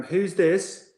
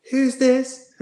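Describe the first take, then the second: First: Higher-pitched voice answering a call; put-on questioning phone voice; coach on phone. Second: Loud, very high Irish coach voice; exaggerated Irish accent, pitched way up. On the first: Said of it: "George picked up the phone, and he's like". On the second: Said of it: "I'll try an Irish accent".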